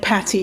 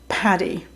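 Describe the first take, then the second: First: The middle consonant is a t sound. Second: The middle consonant is a d sound. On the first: The speaker calls it wrong. "you were saying Patty" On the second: The speaker calls it right. "not Paddy"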